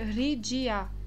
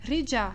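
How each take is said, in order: First: The middle is a separate d followed by i. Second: The middle is one blended j-like sound. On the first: The speaker calls it wrong. "Eu não posso falar Ridia. É errado" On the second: The speaker calls it right. "É Rija"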